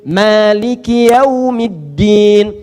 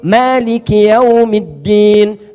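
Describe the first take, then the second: Both takes have the same delivery.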